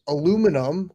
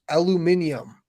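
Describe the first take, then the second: First: The word is said the American way. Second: The word is said the British way. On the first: "aluminum with N U M" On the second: "pronounced aluminium"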